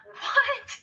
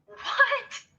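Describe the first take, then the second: No difference in how they are said.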